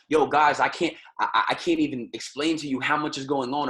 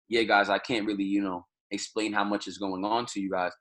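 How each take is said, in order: First: Excited, energetic. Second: Lower, flat-out unenthused delivery; low-energy, bored. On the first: Teacher demoing how an energetic speaker sounds, hyped. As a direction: sell it like you're pumped to tell them. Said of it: "If you're talking to somebody like this". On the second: Teacher demoing a dull, unexcited speaker, bored and low. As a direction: say it like you couldn't care less. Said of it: "Or if you're talking to somebody like this". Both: Shown as a demonstration.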